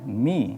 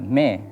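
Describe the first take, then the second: First: The vowel sounds like the ee in see. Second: The vowel sounds like the e in bed. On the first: The speaker calls it right. "Ketika pengucapan kasroh mi" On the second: The speaker calls it wrong. "jangan uh, me"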